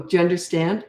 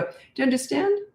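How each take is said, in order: First: Said in the usual way. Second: "understand" rising high and soft, no anger; quiet steady rise on "understand", like nodding with eye contact; calm, fearless question. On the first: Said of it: "So you don't go". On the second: Shown as a demonstration. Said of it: "careful with how you do it".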